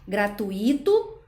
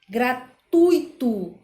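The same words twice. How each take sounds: First: The stress falls on the I vowel. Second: The stress falls on the U vowel. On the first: The speaker calls it wrong. "como a gente costuma colocar no I" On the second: The speaker calls it right. "o acento tônico, ele está no U e não no I"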